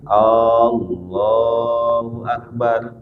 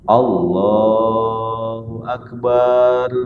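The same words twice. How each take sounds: First: The opening vowel of the phrase is drawn out. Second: The vowel after the b sound is drawn out. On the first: "hamzahnya dipanjangin" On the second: "ba-nya dipanjangin"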